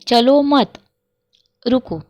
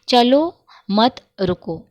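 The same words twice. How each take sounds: First: There is a pause after mat. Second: There is a pause after chalo.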